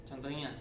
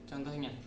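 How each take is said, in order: The two takes are said the same way.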